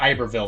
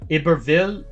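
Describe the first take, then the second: First: The name is said with an English sound. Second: The name is said with a French sound. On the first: The speaker calls it wrong. "That probably sounds too like Englishy" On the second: The speaker calls it right. "It's probably pronounced"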